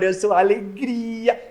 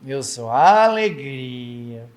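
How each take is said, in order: First: It is said with lots of energy. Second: It is said in a listless, teenage way.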